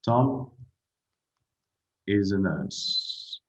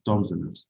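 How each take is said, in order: First: The verb is said in its full form. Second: The verb is contracted onto the name.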